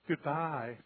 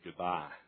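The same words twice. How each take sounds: First: The goodbye sounds warm and affectionate. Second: The goodbye sounds cold and offhand. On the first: The speaker cares about the person leaving. "a real loving pastor would say goodbye like this" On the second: The speaker does not care much about the person leaving. "But he said goodbye like that"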